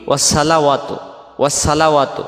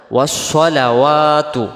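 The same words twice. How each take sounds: First: ওয়াসসালাওয়াতু with a thin "sa", said quickly; everyday spoken "wassalawatu" for ওয়াসসালাওয়াতু; mistaken light sin. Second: ওয়াসসালাওয়াতু with a full, rounded "so" and long "waa"; slow chanted "wassolawaatu" for ওয়াসসালাওয়াতু; correct heavy sad. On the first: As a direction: demonstrate ওয়াসসালাওয়াতু with short vowels and light s. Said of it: "এই সদটা সিন অক্ষর হয়ে যাবে". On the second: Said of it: "সদ জবর স". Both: Shown as a demonstration.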